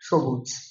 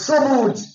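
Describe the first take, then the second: First: The word is said soft and gentle. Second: The word is said hard and forceful. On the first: The speaker calls it right. "এটা soft" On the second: The speaker calls it wrong. "হলো না"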